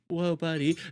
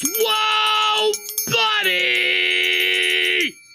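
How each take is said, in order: First: It is said flat and weak, without energy. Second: It is said with loud, intense energy.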